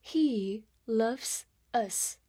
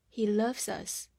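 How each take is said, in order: First: Slow, word-by-word model; slow reading. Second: Said in the usual way. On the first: Shown as a demonstration. Teacher models a short example for learners, slowly. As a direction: stretch out each word with small gaps. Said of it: "慢慢来读".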